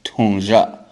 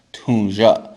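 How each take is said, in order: Both takes have the same delivery.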